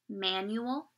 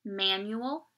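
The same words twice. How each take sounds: The two takes are said the same way.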